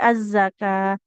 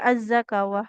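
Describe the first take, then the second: First: The waw is silent, ending in a long ah. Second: The waw is pronounced, ending in awah. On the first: The speaker calls it right. "tapi az-zakah" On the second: The speaker calls it wrong. "tidak juga az-zakawah"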